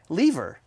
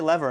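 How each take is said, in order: First: The word is said in a British-sounding way. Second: The word is said in a plain, non-British way. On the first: It sounds classier. The speaker calls it right. "It's a more classy pronunciation" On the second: It sounds less classy. The speaker calls it wrong. "I say lever and I hate myself"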